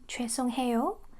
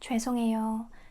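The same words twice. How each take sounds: First: The h sound in the third syllable is pronounced. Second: The h sound is dropped, blending into the vowel. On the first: The speaker calls it wrong. "we don't say 해" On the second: The speaker calls it right. "we say 에 to make it smoother"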